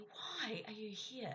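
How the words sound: The question sounds judgmental and annoyed. The speaker is frustrated that the listener is present. "it could have a judgmental tone that suggests I'm frustrated about something or annoyed"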